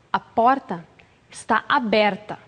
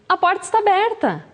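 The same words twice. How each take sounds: First: Stern hint. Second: Inviting, higher. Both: Shown as a demonstration. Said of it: "a entonação também muda".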